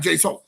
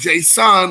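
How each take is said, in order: First: The last syllable does not sound like 'sun'. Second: The last syllable sounds like the word 'sun'. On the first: The speaker calls it wrong. "not Jason" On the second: The speaker calls it right. "it's more like Jason, like the sun"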